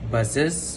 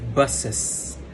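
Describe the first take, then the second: First: The word ends with a voiced z sound. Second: The word ends with a voiceless s sound. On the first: "instead of buses" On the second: "he uses buses"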